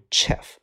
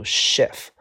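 First: "chef" begun with a hard ch sound; wrong pronunciation. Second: "chef" begun with sh, not ch; correct pronunciation. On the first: Teacher showing students the reading to avoid, "chef" with a ch. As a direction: misread "chef" as "tchef", ch as in chess. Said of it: "不读". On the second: Teacher correcting the misreading for students, "chef" with an sh. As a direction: say "chef" as "shef". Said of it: "读". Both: Shown as a demonstration.

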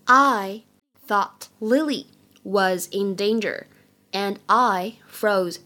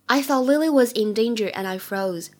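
First: Very slow, phrase by phrase; slow model reading. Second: Said in the usual way. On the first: Shown as a demonstration. English teacher models the line for learners, slow model reading. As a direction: draw each word out, pausing between chunks.

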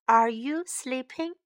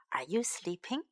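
First: Said in the usual way. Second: Soft unvoiced whisper. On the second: Shown as a demonstration. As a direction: whisper the question gently. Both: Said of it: "time to learn some English".

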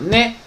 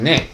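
First: ね with the pitch lifting at the end; rising tone on ね. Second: ね with the pitch dropping at the end; falling tone on ね. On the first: Showing students one reading of the particle, ね rising. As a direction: say ね rising, like a question. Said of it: "你看它音调不一样". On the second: Showing students the other reading of the particle, ね falling. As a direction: let ね fall away. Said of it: "降也可以". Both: Shown as a demonstration.

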